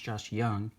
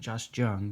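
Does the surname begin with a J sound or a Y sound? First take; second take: Y sound; J sound. First: The surname begins with a Y sound. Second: The surname begins with a J sound. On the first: The speaker calls it right. "I believe it's pronounced Josh Young" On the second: The speaker calls it wrong. "It looks like Josh Jung"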